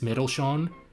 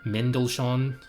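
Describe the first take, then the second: First: The N sound is faint and unclear. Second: The N sound is clearly pronounced. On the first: The speaker calls it wrong. "I vaguely pronounced the N" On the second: The speaker calls it right. "I just thought you needed to hear it again"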